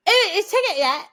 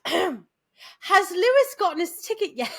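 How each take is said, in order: First: Loud, high, slurred English-accent mimicry; garbled accent imitation. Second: "Has Lewis gotten his ticket yet?" slow, louder, every word separated; careful enunciation. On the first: Friend back from England asks about a ticket, garbled accent. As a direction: blurt it in an unintelligible English accent. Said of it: "it literally came out". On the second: Retold or imitated. Friend repeats himself to a baffled listener, slow and careful. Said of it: "He goes, "Right".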